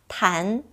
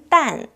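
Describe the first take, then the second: First: The syllable begins with a t sound. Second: The syllable begins with a d sound. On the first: It means elastic, as in elasticity. "탄력 있다 할 때는 탄" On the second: It means bullet, as in bulletproof. "방탄 할 때는 딴"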